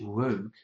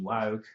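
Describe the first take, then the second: First: It is said in a British accent. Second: It is said in an Australian accent. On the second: "my Australian pronunciation"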